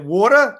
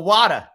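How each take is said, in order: First: "water" as "waw-duh", New York style; New York accent. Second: "water" as "wah-duh", Boston style; Boston accent. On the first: Comparing city accents for friends, New York "water". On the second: Comparing city accents for friends, Boston "water". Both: Shown as a demonstration. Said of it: "Boston and New York".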